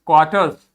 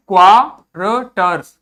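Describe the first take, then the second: First: Said in the usual way. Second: क्वार्टर्स split slowly as क्वा-र-टर्स, louder first syllable; syllable-by-syllable reading. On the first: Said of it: "बीच वाला आर नहीं बोलना है". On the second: Shown as a demonstration. Teacher breaking up a written word, syllable by syllable. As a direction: sound out क्वार्टर्स in separate pieces. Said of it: "ये क्या है?".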